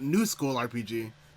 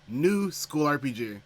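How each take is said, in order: First: 'New school' is said together as one unit. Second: A break sets 'new' apart from 'school RPG'. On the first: The game is in a modern style, not old-school. The speaker calls it wrong. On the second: It is a new game set in a school. The speaker calls it right.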